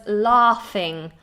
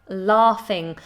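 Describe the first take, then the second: No difference in how they are said.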